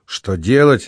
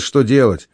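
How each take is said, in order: First: A touch of irritation on «Что делать?»; understated annoyed repeat; annoyed echo. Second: Said in the usual way. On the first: A narrator's reading. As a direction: throw «Что делать?» back with mild vexation. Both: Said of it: "с досадой переговорил Павел".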